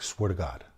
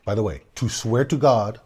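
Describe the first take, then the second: First: "Swear to God." said softer, low and earnest; solemn hushed oath. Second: Said in the usual way. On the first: Retold or imitated. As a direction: swear it in a soft, grave voice. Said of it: "He's like".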